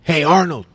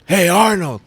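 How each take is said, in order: First: Loud, higher call across the bar; calling out a name. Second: Loud, higher call across the beach; calling out again. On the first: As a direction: call the name to get his attention. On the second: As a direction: call him louder, a bit more insistent. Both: Retold or imitated. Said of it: "like, an American accent".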